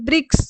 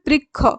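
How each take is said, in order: First: It is said in the Sanskrit manner. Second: It is said in the Bengali manner. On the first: "সংস্কৃত উচ্চারণ রীতি অনুযায়ী হবে" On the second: "শব্দটি উচ্চারণ হয় বৃক্ষ"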